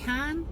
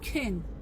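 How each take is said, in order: First: The word is said with a full vowel. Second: The word is said with a reduced vowel. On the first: The speaker calls it wrong. "c'est pas can" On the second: The speaker calls it right. "mais can"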